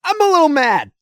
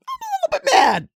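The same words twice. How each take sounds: First: Louder, higher mock-mad line; playful fake anger. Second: Very high put-on voice; cartoonish high-pitched mock anger; squeaky mock voice. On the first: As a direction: announce being mad, pushed up. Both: Shown as a demonstration.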